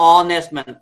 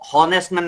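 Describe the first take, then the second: First: The word begins directly with a vowel sound. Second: The word begins with an audible H sound. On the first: The speaker calls it right. "এটা হচ্ছে অনেস্ট man. অ অ এই অনেস্টের হওয়ার কারণে" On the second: The speaker calls it wrong. "এটা কিন্তু হনেস্ট man না"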